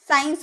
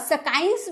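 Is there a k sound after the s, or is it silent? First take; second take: silent; k sound. First: No k sound follows the initial s. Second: A k sound follows the initial s. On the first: The speaker calls it right. "नहीं ना, साइंस बोलेंगे।" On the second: The speaker calls it wrong. "क हुआ, सकाइंस बोलेंगे?"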